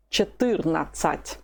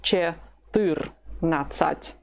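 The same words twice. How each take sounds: First: Said in the usual way. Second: Четырнадцать very slowly, split, weight on "тыр"; stress on second syllable. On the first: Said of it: "Keep pronouncing it with the stress". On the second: Shown as a demonstration. Teacher drills fourteen, Четырнадцать slowly with stress on "тыр". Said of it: "with the stress on the second syllable".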